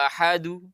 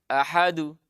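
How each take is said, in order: First: The final bounce leans toward a u vowel. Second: The same.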